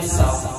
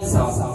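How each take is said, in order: First: The voice sounds torn and distorted. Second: The voice sounds even, full and undistorted. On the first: The speaker calls it wrong. "nó xé thì tiếng luôn" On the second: The speaker calls it right. "tiếng mic nó sẽ to hơn"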